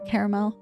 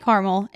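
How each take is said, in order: First: The word is pronounced in a fancier, careful way. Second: The word is pronounced in a casual everyday way. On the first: "if I feel like it needs to be a little fancier" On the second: "I say caramel in my everyday life"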